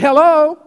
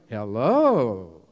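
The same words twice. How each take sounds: First: It is said in a friendly tone. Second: It is said in a harsh tone.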